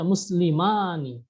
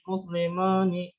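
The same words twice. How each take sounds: First: The a vowel sounds open and clear. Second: The a vowel sounds closed and unclear. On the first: The speaker calls it right. "harusnya muslimani ya, jelas ya" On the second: The speaker calls it wrong. "Dibaca tidak terbuka"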